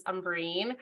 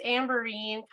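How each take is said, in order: First: Umberine, first vowel as in "up"; alternative pronunciation. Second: Said in the usual way. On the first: Shown as a demonstration. Speaker showing another way her name is said, alternative pronunciation. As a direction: say Umberine with an opening "um" sound. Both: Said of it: "It's also pronounced as".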